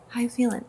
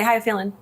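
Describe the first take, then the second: First: It sounds warm and caring. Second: It sounds casual and offhand.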